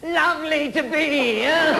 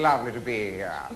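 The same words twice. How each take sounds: First: It is said with a forced, strained voice. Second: It is said smoothly with easy elegant stress.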